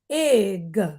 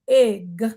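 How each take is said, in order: First: Each consonant sound gets an extra 'uh' added. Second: The word is said smoothly as one syllable. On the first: The speaker calls it wrong. "put the uh sound behind every letter sound" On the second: The speaker calls it right. "instead of saying pig"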